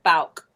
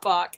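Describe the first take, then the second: First: The name is said like 'Bauk'. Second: The name is said like 'Bach'. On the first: The speaker calls it right. "that's how you say it" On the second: The speaker calls it wrong. "It's not Bach"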